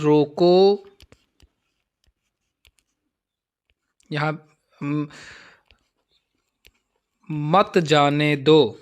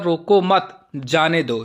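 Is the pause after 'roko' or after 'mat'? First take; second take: after roko; after mat. First: The pause comes right after the first word. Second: The pause comes right after the second word. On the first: Stop the person and do not let them go. "लिखने वाला क्या कह रहा है कि जो जा रहा है उसको रोको, मत जाने दो" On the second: Do not stop the person; let them go. "इसी उपविराम को अगर हम यहाँ पर प्रयोग कर लेते हैं"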